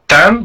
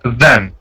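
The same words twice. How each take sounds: First: The word starts without a soft th sound. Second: The word starts with a soft th sound. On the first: The speaker calls it wrong. "it's not then" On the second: The speaker calls it right. "but then. The the sound"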